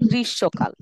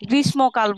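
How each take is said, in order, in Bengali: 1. মাঝের ব্যঞ্জনটি s এর মতো শোনায়। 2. মাঝের ব্যঞ্জনটি m এর মতো শোনায়। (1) "মটা স এর মতো উচ্চারণ হবে" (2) "গ্রীষ্মকাল বলবো না"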